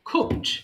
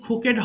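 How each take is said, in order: First: The word is said as one syllable. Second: The word is said as two syllables. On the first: The speaker calls it right. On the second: The speaker calls it wrong. "এটা কিন্তু কুকেড হবে না"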